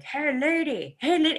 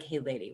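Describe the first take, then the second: First: High, loud mock crow call; crows yelling. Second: Said in the usual way. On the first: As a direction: call out like a crow hailing someone. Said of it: "when they're yelling at me". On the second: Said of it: "It, it sounds like".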